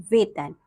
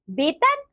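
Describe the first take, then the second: First: Said in the usual way. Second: "वेतन" with b for v, "betan"; wrong pronunciation. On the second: Shown as a demonstration. Teacher showing pupils the error, "वेतन" mispronounced as "betan". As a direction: open "वेतन" on a b. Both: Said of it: "अन्य अशुद्धियां कुछ".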